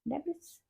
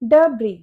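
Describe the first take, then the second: First: It ends with a clear s sound. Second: It ends on a vowel, no s sound. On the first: The speaker calls it wrong. "पता नहीं डेब्रिस क्यों लिखा है" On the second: The speaker calls it right. "इसको हम बोलेंगे डब्री"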